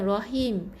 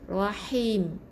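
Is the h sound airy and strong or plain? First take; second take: plain; airy. First: The h is plain and light. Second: The h is airy and strongly breathed. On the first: The speaker calls it wrong. "bukan rahim" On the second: The speaker calls it right. "pastikan sebut betul-betul lah"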